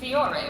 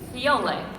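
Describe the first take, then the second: First: The name is said with an R sound. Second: The name is said with an L sound. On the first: "It was written F I O R E" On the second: "please pronounce this Fiole with an L"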